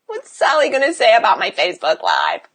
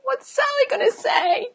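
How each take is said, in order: First: Mock fretting that slides down in pitch; whiny imitation of a worrier. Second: Tiny high-pitched fretting voice; soft, squeaky mock worry; mock worrier. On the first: Coach mimicking client afraid of being judged online, mock fretting. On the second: Coach mimicking a self-absorbed client worried about gossip, mock fretting. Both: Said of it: "worried about Sally".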